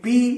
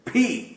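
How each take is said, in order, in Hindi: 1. P को बिना हवा के साथ बोला जाता है। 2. P को जोर की हवा के साथ बोला जाता है। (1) "ये पी नहीं है" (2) "मुंह से हवा निकलती है, फी। तो ये इसका सही तलफ्फुज है"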